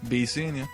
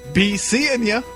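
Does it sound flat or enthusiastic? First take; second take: flat; enthusiastic. First: It sounds flat and unexcited. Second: It sounds forced and overly enthusiastic.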